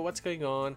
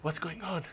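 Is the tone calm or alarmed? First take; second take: calm; alarmed. First: It is said in a calm, casual way. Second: It is said in an alarmed, panicked way.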